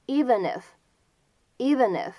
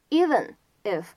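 First: "even if" joined as "eve-nif"; slow demo of "even if" as one word; linked reading. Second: Said in the usual way. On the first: Shown as a demonstration. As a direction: carry the N of "even" straight into "if". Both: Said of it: "可以连读".

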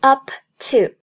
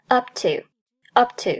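First: "up to" as two separate words, the p popped; "up to" unlinked, both words fully sounded; fully released p. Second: "up to" joined, the p held without a pop; slow "up to" with a silent stop for the p; unreleased p. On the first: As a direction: release the p of "up" before saying "to". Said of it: "不读作up to". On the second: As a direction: close the lips on "up", then go straight to "to". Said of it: "失去爆破". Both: Shown as a demonstration.

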